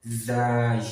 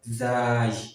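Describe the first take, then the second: The two takes are said the same way.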